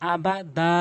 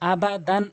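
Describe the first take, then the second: First: The word ends with a stretched long a vowel. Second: The word ends with a short syllable and n. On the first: The reader stops on this word. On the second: The reading continues without stopping.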